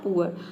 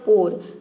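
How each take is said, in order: First: The vowel is a long oo gliding to uh. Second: The vowel is a single oh sound. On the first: The speaker calls it right. "पहले ऊअर रखा तो आपका pronunciation हो, हो जाएगा पुअर" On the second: The speaker calls it wrong. "और फिर आपने रखा ओ तो ये हो जाएगा पोर"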